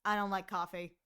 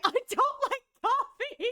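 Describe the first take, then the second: First: Lower, flat straight-faced reply; no emotion, straight face; deadpan brush-off of a pickup line; quiet deadpan. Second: Higher, louder, laughing through it; can't hold the straight face; laughing attempt at the deadpan reply; laughing quote. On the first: Retold or imitated. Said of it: "Kaede's quiet deadpan, like, straight face, no emotion". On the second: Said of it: "Kaede's quiet deadpan".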